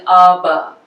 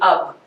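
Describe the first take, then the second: First: The final b is fully released. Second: The final b is an unreleased voiceless stop. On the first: The speaker calls it wrong. "so we won't uh, be saying ub" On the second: The speaker calls it right. "sound like a voiceless stop"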